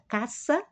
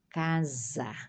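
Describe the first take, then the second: First: The middle consonant is a hissing s sound. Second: The middle consonant is a buzzing z sound. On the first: This is the Spanish pronunciation. "do espanhol ... pronuncia como tivesse duas S" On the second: This is the Portuguese pronunciation. "português"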